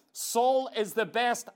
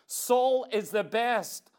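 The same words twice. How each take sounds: The two takes are said the same way.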